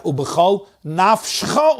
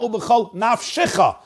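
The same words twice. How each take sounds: First: "nafshcha" slow, with sh straight into cha; nafshcha, no vowel before cha; silent shva. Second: "nafshicha" higher, with an extra shi; nafshicha, extra syllable before cha; moving shva. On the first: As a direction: close the syllable in nafshcha. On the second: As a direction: sound the vowel in nafshicha. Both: Shown as a demonstration. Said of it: "That's a shvana".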